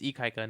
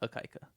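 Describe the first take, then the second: First: The name starts with an 'ee' sound. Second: The name starts with an 'ah' sound. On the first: The speaker calls it right. "It's Ikaika" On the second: The speaker calls it wrong. "not Akaika"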